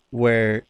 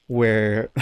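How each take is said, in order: Both takes have the same delivery.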